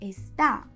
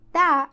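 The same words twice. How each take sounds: First: The opening syllable is pronounced in full, 'está'. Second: The opening syllable is dropped, leaving only 'tá'. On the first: "the word" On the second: "is a contraction of the word"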